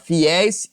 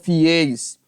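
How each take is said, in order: First: The stressed diphthong has an open vowel. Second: The stressed diphthong has a closed vowel. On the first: The speaker calls it right. "Vou falar fiéis" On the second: The speaker calls it wrong. "e não fiéis"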